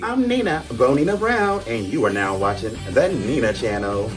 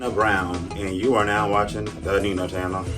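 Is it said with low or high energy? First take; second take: high; low. First: It is said with more energy. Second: It is said with less energy.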